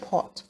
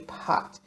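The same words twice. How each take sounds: First: The word is said with a standard English accent. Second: The word is said with a Jamaican Patois accent. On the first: This is the form for those who speak properly. "for those proper speaking" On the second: This is how people in Jamaica say it. "We here in Jamaica say pot"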